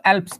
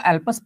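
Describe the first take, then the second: First: एल्प्स as one syllable, "alps"; other reading of Alps. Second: एल्पस with a vowel between p and s, "al-pas"; variant reading of Alps. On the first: Teacher showing the other reading, एल्प्स as one-syllable "alps". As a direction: say एल्प्स with p and s run together, no vowel between. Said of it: "कुछ लोग एल्प्स पढ़ते हैं". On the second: Teacher showing how some people read Alps, एल्पस as "al-pas". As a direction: say एल्पस in two syllables, "AL-pus". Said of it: "कुछ लोग एल्पस पढ़ते हैं". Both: Shown as a demonstration.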